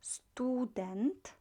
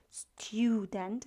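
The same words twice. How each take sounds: First: Student whispered with clean stu, no y glide; Polish vowel. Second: Student with English stew sound; wrong vowel. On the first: Teacher showing right Polish Student. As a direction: say Student with stu not stew. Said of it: "but stu". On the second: Teacher showing wrong English student. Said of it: "It's not stew". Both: Shown as a demonstration.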